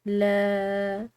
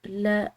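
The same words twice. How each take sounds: First: The vowel is drawn out long. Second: The vowel is short and clipped. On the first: The speaker calls it right. "अलिफ मद्दा की वजह से लंबा पढ़ा" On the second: The speaker calls it wrong. "सिर्फ लाम जबर ल, इस तरह नहीं"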